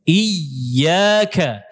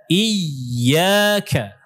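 No difference in how they are said.

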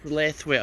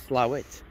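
First: The name is said fully, as it is written. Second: The name is said in a short, clipped form. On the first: This is how the name is written. The speaker calls it wrong. "It says Slathwaite on a map" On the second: This is how the name is actually said. The speaker calls it right. "but it's Slawit"

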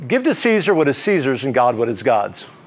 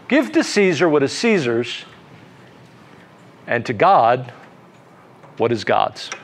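First: It runs straight on after 'Caesar's'. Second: It stops for a while after 'Caesar's'. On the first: "So you can read it like this" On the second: "Or you can read it with a pause. ... But let the pause be pregnant. Let the pause be filled with thought"

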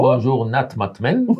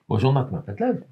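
First: The greeting is said at a slower pace. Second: The greeting is said at a faster pace.

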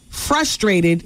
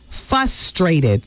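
First: The sounds are in their normal order. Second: Some sounds in the word are swapped around. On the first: "pronouncing words like frustrated" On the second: "you're dyslexic when it comes to pronouncing words"

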